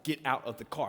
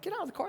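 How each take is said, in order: First: Low, level imitation of an officer; firm police order. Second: High-pitched mock disbelief; incredulous echo. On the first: Officers ordering the driver out, firm and low. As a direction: lower the pitch and repeat the order firmly. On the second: Driver echoing the police order back, high and incredulous. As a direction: squeak the order back in a much higher voice.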